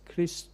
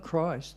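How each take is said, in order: First: It is pronounced the Greek way, like Christos. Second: It is pronounced the usual English way. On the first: This is how some European speakers say it. "it's Christ, Christos. That's how they say it" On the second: This is how English speakers say it. "they say Christ, right? That's how we say it"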